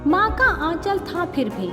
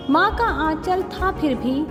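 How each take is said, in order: Both takes have the same delivery.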